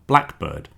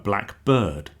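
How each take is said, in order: First: The stress falls on the word black. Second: The stress falls on the word bird. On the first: A particular type of bird. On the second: "with stress on bird"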